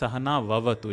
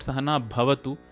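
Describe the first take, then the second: First: The last word begins with a V sound. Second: The last word begins with a B sound. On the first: The speaker calls it right. "it is split as Saha Now Avatu" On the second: The speaker calls it wrong. "many people have make this mistake of Sahana Bhavatu. It is not"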